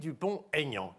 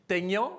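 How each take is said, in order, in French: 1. Les deux noms restent séparés, sans liaison. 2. Le t final se lie au mot suivant. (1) "j'ai bien prononcé, ... cette séparation entre les deux noms" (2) "je n'ai pas dit"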